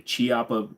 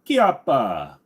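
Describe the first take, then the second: First: The name begins with a soft ch sound. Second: The name begins with a hard k sound. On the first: The speaker calls it wrong. "A lot of people people will say Chiappa" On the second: The speaker calls it right. "it's a hard C, so it's Chiappa"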